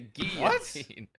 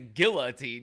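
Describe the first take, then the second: First: The L sound is left out. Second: The L sound is clearly pronounced. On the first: The speaker calls it right. "You say guillotine. ... the L is silent" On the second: The speaker calls it wrong. "You don't say guillotine"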